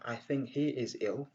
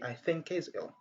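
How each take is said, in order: First: The h in 'he' is clearly pronounced. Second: The h in 'he' is dropped. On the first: The speaker calls it wrong. "au lieu de dire" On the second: The speaker calls it right. "on dit"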